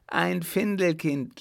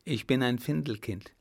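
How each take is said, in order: First: Findelkind cried out higher in surprise; startled cry. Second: Said in the usual way. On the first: Acted. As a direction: echo his word as a shocked outcry. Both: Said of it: "schrie sie förmlich auf".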